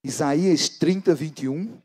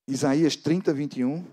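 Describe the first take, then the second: No difference in how they are said.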